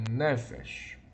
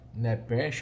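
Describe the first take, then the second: First: The middle consonant is an f sound. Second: The middle consonant is a p sound. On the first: "uma pronúncia recomendável é Nefesh" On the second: "alguns chamam Nepesh"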